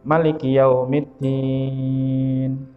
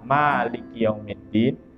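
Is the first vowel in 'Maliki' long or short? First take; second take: short; long. First: The first vowel of Maliki is short. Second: The first vowel of Maliki is long. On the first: It means king or sovereign. "kalau di sini dibaca pendek" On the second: It means owner of the Day of Judgment. "Yang masyhur dibaca"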